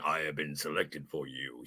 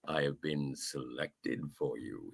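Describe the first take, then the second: First: It is said plainly, without any suggestive tone. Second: It is said with a seductive, suggestive tone.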